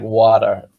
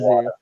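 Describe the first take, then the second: First: It is said in an American accent. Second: It is said in a British accent.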